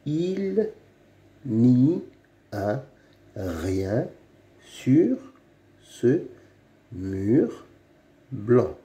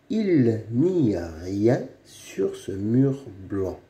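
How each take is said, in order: First: "Il n'y a rien sur ce mur blanc" with a pause after every word; halting reading of "Il n'y a rien sur ce mur blanc". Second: Said in the usual way. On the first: Shown as a demonstration. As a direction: read it one word at a time like a beginner. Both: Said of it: "Lis les phrases".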